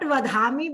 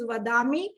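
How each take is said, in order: First: The middle consonant has a breathy aspirated release. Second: The middle consonant has a plain unaspirated release. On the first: The speaker calls it wrong. "they are using that Mahapran Dhwani when it is not necessary to" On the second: The speaker calls it right. "it is Vadami"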